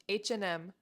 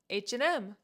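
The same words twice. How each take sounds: First: The word 'and' is reduced and said quickly. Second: The word 'and' is reduced and said quickly.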